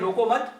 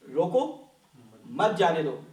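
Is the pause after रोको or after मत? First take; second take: after मत; after रोको. First: The pause comes right after मत. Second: The pause comes right after रोको.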